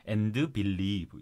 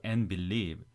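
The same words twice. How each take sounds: First: "And" with a sounded d and an added vowel; wrong reading of AND. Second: "and" said as "en", d dropped, straight into believe; no d or extra vowel after "and"; linked reading. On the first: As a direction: split "And believe" into "an-deu believe". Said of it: "이렇게 읽지 마시고". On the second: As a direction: run "and believe" together as "en-billeev". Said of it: "이렇게 읽으셔야 돼요". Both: Shown as a demonstration.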